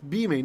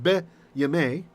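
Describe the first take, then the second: First: No 'y' consonant is heard after the 'b'. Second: A 'y' consonant is heard after the 'b'. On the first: The speaker calls it right. "It's bimei" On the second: The speaker calls it wrong. "not be yamei"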